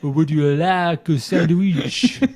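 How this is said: It is spoken with a French accent. "saying the same thing in English but with a French accent"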